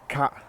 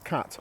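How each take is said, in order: First: The word ends without any t sound. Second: The word ends with a clear t sound. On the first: "We don't pronounce the T" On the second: "which is cat, obviously"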